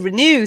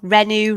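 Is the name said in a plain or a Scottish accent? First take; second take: Scottish; plain. First: The name is said in a Scottish accent. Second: The name is said in a plain accent. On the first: "If you're Scottish, it's hey" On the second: "I get a lot of people"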